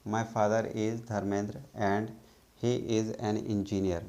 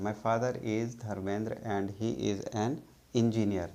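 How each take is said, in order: Both takes have the same delivery.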